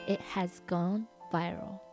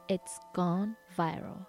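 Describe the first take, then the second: First: It has is said as two full words. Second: It has is shortened to it's.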